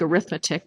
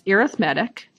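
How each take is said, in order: First: The stress is on the second syllable. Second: The stress is on the third syllable. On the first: This is the word for the branch of mathematics. The speaker calls it wrong. "It looks like arithmetic" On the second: This is the word describing a kind of combination or series. The speaker calls it right. "but it's pronounced arithmetic, like arithmetic series"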